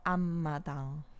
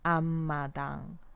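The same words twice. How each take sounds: Both takes have the same delivery.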